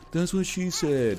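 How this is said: It is said in a deliberately dumb, ironic voice. The speaker knows the joke is dumb. The speaker calls it right.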